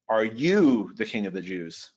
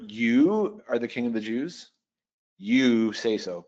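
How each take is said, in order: First: "you" leaned on, slightly longer and firmer; stress on YOU. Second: "You" hit at the start of both lines, last line slowed; stress on YOU. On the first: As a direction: make "you" the bold word of the question. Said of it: "So one option is to put the word in bold". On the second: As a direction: open each line by pushing "You". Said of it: "put that in bold". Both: Shown as a demonstration.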